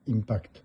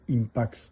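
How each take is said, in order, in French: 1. Le nom se termine par un son 'kt'. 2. Le nom se termine par un son 'ks'. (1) "certains disent Impact" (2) "Non, c'est Impax soixante-huit"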